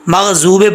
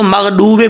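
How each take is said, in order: First: The middle consonant is a z sound. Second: The middle consonant is a plain d sound. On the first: "मगजूबे पढ़ेंगे तब भी ये गलत है" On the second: "इसको मगडूबे पढ़ेंगे तो गलती है"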